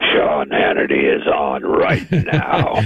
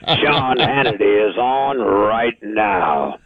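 First: Much lower, slow announcer read; deep morning voice. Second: Announcer voice. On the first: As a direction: drop into early-morning bass. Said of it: "I still have that morning voice". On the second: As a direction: stretch it like a radio liner. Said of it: "Sir, how are you?". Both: Shown as a demonstration.

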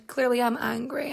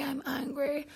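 First: Said in the usual way. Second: "angry" breathed as a near-silent whisper; whispered aside. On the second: Shown as a demonstration. Host repeating she is angry to viewers, whispered. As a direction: drop to a hush on "I'm angry".

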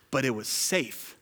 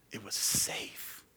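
First: Said in the usual way. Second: "It was safe" breathed slow and unvoiced; whispered repeat. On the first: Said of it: "repeated quietly". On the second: Shown as a demonstration. Pastor echoing his point in a hush.

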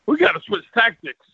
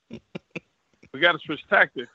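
First: Said in the usual way. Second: Slow, deliberate repeat; telling himself mid-fight, slow and deliberate; slow emphatic repeat. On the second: Retold or imitated. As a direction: spell it out slowly to yourself. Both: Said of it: "I said to myself".

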